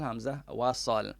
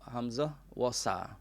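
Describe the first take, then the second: First: The last word ends with a clear L sound. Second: The last word ends without an L sound. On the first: This is the standard Arabic pronunciation. The speaker calls it right. "nak yang sebutan yang betul" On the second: This is how Kelantan speakers say it. The speaker calls it wrong. "Kalau orang Kelantan kata hamzah wasa"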